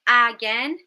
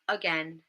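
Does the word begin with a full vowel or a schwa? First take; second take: full vowel; schwa. First: The first vowel is a full, clear vowel. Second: The first vowel is a weak schwa. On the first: The speaker calls it wrong. "Instead of again" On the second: The speaker calls it right. "We've got that schwa right at the beginning"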